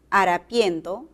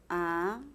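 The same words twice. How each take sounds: First: Said in the usual way. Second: Harapien softer, leaning on the E of -pien; stressed syllable shown. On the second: Shown as a demonstration. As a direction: bring out the E in harapien. (harapien, acentuando la E de -pien) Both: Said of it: "suena más la E".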